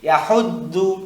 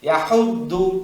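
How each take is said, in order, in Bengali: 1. মাঝের ব্যঞ্জনটি একটি ভারী d ধ্বনি। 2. মাঝের ব্যঞ্জনটি একটি ভারী d ধ্বনি।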